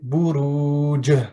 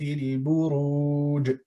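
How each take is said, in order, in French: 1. La consonne finale rebondit avec une force supplémentaire. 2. La consonne finale rebondit légèrement.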